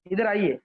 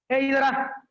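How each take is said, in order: First: Polite, sweet invitation at normal pitch; मीठा, आदर भरा. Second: Higher-pitched curt order to come; harsh, rude summons. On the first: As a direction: invite them over courteously and gently. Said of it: "कितना मधुरता लगती है". (मधुरता से, आदर के साथ) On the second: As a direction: order them over rudely. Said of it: "कितना कर्कश लगती है". (कर्कश, रूखे स्वर में) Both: Shown as a demonstration.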